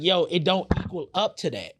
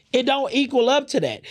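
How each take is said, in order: First: Said in the usual way. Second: Emphatic outburst. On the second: Real, not acted. To the audience about the [name] diss, repeating it with a loud, high outburst. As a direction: repeat it much higher and louder, fired up. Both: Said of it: "repeats line for emphasis".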